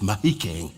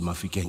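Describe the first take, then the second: First: The middle consonant is an h sound. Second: The middle consonant is an f sound. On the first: This is the local Barolong way of saying it. The speaker calls it right. "it's Mahikeng. Agiri Barolong pronunciation" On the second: This is how outsiders say the name. The speaker calls it wrong.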